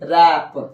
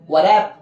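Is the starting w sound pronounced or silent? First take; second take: silent; pronounced. First: The word starts directly with the r sound. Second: A w sound is heard before the r. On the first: The speaker calls it right. "डब्ल्यू को silent कर दीजिए" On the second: The speaker calls it wrong. "गलत हो जाएगा"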